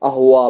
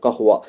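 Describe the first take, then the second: First: The word begins directly with a vowel. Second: The word begins with a k-like consonant. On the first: This is a dialect pronunciation. "அஹுவா அப்படின்னு சொல்லிட்டு" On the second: This is the standard Arabic form. "அரபிக்ல கஹுவான்னு சொல்லுவாங்க"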